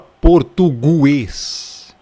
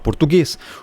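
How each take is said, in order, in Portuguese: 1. Ouve-se um som de u depois do g. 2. Não se ouve som de u depois do g. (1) "A gente não fala português" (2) "A gente fala português"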